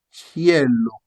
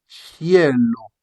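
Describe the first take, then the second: The two takes are said the same way.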